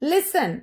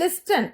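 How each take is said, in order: First: The t sound is silent in the middle. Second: The t sound is pronounced in the middle. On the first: The speaker calls it right. "അവിടെ ടി silent ആണ്" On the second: The speaker calls it wrong. "It's not"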